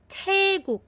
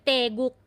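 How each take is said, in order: First: The first consonant has a puff of air. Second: The first consonant has no puff of air. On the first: The speaker calls it right. "aspirated sound po siya" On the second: The speaker calls it wrong. "hindi po yan Taeguk"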